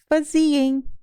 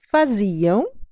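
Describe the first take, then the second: First: The word ends with a nasal 'em' sound. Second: The word ends with a nasal 'ão' sound. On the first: This is a regional variant form. "realizada como em" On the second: This is the standard European Portuguese form. "Aquela terminação ão"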